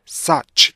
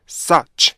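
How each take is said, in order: No difference in how they are said.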